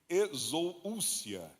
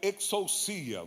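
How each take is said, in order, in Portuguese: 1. Ela é pronunciada no estilo português. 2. Ela é pronunciada no estilo grego. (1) "no português o pessoal chama de exousia" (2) "que no grego é exousia"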